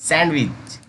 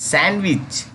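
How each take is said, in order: No difference in how they are said.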